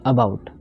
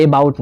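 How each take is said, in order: First: अबाउट as "uh-BOUT"; अबाउट with a short neutral first vowel; schwa first vowel. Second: अबाउट mispronounced as "ay-bout"; अबाउट with a strong "ay" instead of schwa; wrong first vowel. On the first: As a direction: start अबाउट on a quick, weak "uh". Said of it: "नहीं, अबाउट". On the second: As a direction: open अबाउट with a full "ay" sound. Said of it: "आप अबाउट नहीं". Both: Shown as a demonstration.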